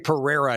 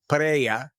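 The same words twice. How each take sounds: First: The name is said in an American way. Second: The name is said in a non-American way. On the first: The speaker calls it wrong. "such an American way to say Pereira" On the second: The speaker calls it right. "Did I say it right?"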